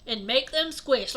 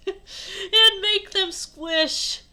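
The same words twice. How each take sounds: First: Said in the usual way. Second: Slow, high, loud and drawn out; hammed-up quote. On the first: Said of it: "It just sounds like". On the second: Shown as a demonstration. Reader replaying the silly line, exaggerated and drawn out. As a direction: stretch "squish" out, high and loud.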